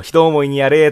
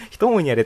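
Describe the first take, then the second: First: Anime character's line, higher and louder; Shiro impression. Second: Said in the usual way. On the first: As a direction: act out a defeated character, raised and loud. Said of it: "シロがやられた時に言うセリフ". (高めで大きめの声真似) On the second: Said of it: "人思いにやれってあれなんだよね".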